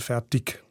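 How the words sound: The final g is hard, Alemannic style.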